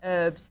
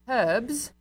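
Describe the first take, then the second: First: It is said the American way, h silent. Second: It is said the British way, h pronounced.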